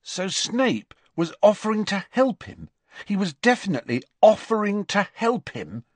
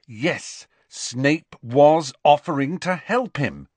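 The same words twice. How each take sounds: First: High-pitched, doubting recap of the news; incredulous checking. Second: "was" leaned on, slow and loud; emphatic confirmation. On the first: Ron double-checking Harry's news, incredulous. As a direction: check it over once more, high and insistent. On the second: Harry answering Ron's repeated question, stress on "was". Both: A narrator's reading.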